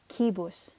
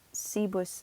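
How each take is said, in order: First: The word begins with a hard K sound. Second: The word begins with a soft S sound. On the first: The speaker calls it right. "we pronounced it like a K sound almost" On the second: The speaker calls it wrong. "it's not cibus"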